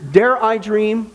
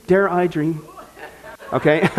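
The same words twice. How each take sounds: First: Slow, drawn-out mock wonder; mock dramatic. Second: Chuckling through the words; laughing. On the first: Host musing on the cow church, slow mock drama. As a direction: savour each word theatrically. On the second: Real, not acted. Host repeating the joke, laughing. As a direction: let the laugh break in.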